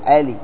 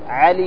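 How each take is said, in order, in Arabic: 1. الحرف الأول همزة. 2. الحرف الأول عين حلقية. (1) "ينطقون العين همزة" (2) "مثلا علي"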